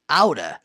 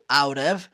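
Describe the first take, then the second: First: The words blend into one reduced word. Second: Both words are pronounced fully and separately. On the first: "é uma contração de out of" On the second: "pode ser pronunciado out of"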